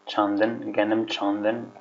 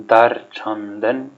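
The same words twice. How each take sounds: First: Said in the usual way. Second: Dar chandan said slowly, each syllable drawn out; slow model phrase. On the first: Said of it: "repeat of the phrase". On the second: Shown as a demonstration. Teacher to learners, modeling a new phrase, slow and clear. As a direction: spell out Dar chandan for the class. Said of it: "slow model for learners".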